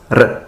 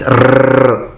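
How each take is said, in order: First: R as a single quick tap of the tongue; short R. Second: R rolled too long and too strong, a foreign-accent burr; overdone R. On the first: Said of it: "it should be pronounced as R, R, a short sound". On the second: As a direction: overpronounce the R on purpose. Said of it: "overpronouncing it". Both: Shown as a demonstration.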